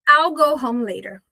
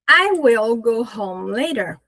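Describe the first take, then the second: First: Will is contracted to a final L sound. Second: The word will is pronounced in full.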